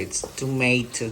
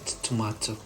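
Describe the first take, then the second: First: It is said with an American accent. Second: It is said with a British accent.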